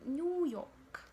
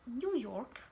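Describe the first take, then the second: First: New York with the R dropped; British-style New York, no R before the K; British pronunciation. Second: New York with the R pronounced; American-style New York, R kept. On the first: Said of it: "British say New York". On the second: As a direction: say New York, sounding the R before the K. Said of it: "they treat the R sound very differently". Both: Shown as a demonstration.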